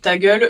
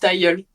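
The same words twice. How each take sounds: First: The g sound is fully pronounced. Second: The g sound is weakened. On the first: "au lieu de dire" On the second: "eux ils disent ta gueule plutôt"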